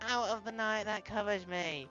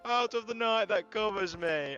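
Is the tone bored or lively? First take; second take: bored; lively. First: It is said in a dull, bored tone. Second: It is said in a lively, leading tone.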